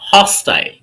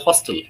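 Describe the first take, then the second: First: The word is said with a British accent. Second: The word is said with an American accent. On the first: "Hostile is ha" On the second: "if we switch this to American version, they don't even say hostile. They say hostel"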